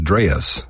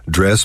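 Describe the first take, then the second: First: The vowel is stretched out with a lilt. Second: The vowel is short and plain.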